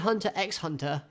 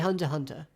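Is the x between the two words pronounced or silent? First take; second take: pronounced; silent. First: The x between the words is pronounced aloud. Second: The x between the words is left silent. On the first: The speaker calls it wrong. "You don't say" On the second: The speaker calls it right. "you say"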